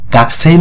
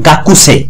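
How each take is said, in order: First: The u sound after k is silent. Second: The u sound after k is fully pronounced. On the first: The speaker calls it right. "সঠিক উচ্চারণ গাকসে" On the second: The speaker calls it wrong. "গাকুসে না বলে"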